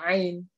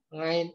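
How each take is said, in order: First: The word begins directly with a vowel. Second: The word begins with an ng sound. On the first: The speaker calls it right. "adanya ain" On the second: The speaker calls it wrong. "Ngain nggak ada ya"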